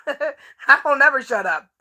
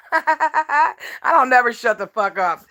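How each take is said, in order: First: Slow, laughing through it. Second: Slow, laughing through the words. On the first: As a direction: laugh while you say it, slowly. Repeats line laughing. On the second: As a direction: laugh it out, slowly. Mocking repeated catchphrase, laughing. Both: Real, not acted.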